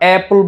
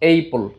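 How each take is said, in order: First: The first vowel is a short 'a' sound. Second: The first vowel is an 'ay' sound. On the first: The speaker calls it right. "এটা হচ্ছে এ sound হবে। ওকে, এখানে আমরা অ্যাপল বলবো" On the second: The speaker calls it wrong. "Not এইপল"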